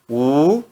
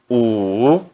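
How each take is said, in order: First: The pitch rises from mid to high. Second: The pitch dips low, then rises. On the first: "No segundo tom" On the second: "no terceiro tom"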